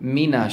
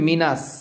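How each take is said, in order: First: The word ends with a full 'sh' sound. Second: The word ends with a plain 's' sound. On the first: The speaker calls it right. "শিনের সাউন্ডটা পরিপূর্ণভাবে আমরা আদায় করতে পারি" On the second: The speaker calls it wrong. "যদি আপনি মিনাস বলেন তাহলে কিন্তু হবে না"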